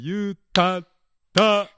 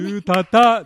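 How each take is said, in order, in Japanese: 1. 最後の音節の前に、短い詰まりがあります。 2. 音節が続けて流れて、詰まりはありません。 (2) "言うたたでなくて"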